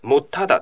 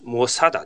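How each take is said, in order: First: The middle consonant is a held 't' sound. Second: The middle consonant is an 's' sound. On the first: The speaker calls it right. "もっただというふうに発音します" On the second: The speaker calls it wrong. "もさだではないですね"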